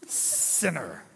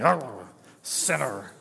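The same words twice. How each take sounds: First: Said in the usual way. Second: Low, slow jowly growl of a word; a hammed-up jowly politician sneer; Nixon jowls voice. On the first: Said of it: "You gotta, like, do your jaws". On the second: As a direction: shake your jaws and drag it out low. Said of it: "that, like, Nixon thing".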